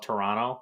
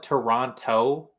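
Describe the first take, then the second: First: The last T is left out. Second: The last T is clearly pronounced. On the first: "people from the north call it Toronto and don't pronounce the last T" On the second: "some people call it Toronto"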